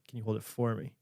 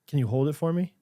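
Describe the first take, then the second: First: The stress is on for. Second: The stress is on hold.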